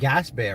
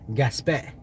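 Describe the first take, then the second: First: The name is said with an English accent. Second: The name is said with a French accent. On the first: "I call it Gaspé" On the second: "French people pronounce it Gaspé"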